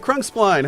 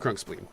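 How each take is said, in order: First: The last syllable does not sound like 'spleen'. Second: The last syllable sounds like 'spleen'. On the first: The speaker calls it wrong. "did I pronounce that incorrectly?" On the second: The speaker calls it right. "It is spleen"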